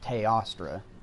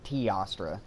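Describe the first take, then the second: First: The first vowel is said like an A. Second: The first vowel is said like an E. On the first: "You pronounce the E as an A in Teostra" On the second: "instead of being like Teostra"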